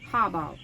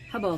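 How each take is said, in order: First: The first vowel is an open 'ah' sound. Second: The first vowel is a short 'uh' sound. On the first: The speaker calls it right. "It's ha. You still want to give it the ah sound" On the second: The speaker calls it wrong. "It's not the huh hubble symbol"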